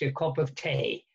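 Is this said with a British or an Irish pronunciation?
Irish. It is said with an Irish pronunciation. "That's how the Irish still pronounce it... classical Irish English"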